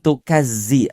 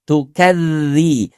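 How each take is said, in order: First: The middle consonant is a buzzing 'z' sound. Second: The middle consonant is a soft 'th' sound. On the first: The speaker calls it wrong. "bukan tukazzi" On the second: The speaker calls it right. "kita perbaiki pengucapan huruf zal"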